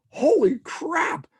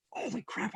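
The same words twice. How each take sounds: First: High, slow, drawn-out exclaim; excited realization. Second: Soft, breathless wonder under the breath; hushed amazement. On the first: Realizing Saturday night is free, excited outburst. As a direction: let the joy burst out slowly. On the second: Alone after colleague leaves, quiet amazed realization. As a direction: say it half to yourself in awe. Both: Retold or imitated.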